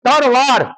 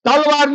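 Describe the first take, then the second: First: The middle consonant is an r sound. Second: The middle consonant is an l sound. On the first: The sword is honoured. The speaker calls it right. "એને તરવાર કહો" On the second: The sword is insulted. The speaker calls it wrong. "તલવાર એટલે ભ્રષ્ટ શબ્દ છે"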